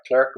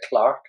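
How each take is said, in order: First: It is said in an American accent. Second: It is said in the speaker's own accent.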